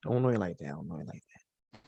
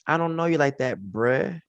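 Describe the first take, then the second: First: Each repeat softer until almost breathless; fading to a murmur. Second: Said in the usual way. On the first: Retold or imitated. Preacher echoing the rejection, fading away. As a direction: let it die away under the breath. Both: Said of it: "That's what he said".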